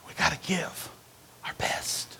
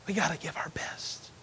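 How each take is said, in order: First: Said in the usual way. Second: Much softer whispered repeat. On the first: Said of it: "repeated, second whispered". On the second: Shown as a demonstration. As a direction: say it again, only whispering. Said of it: "repeated in whisper".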